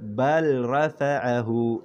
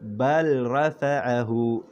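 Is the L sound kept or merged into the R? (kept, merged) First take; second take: kept; kept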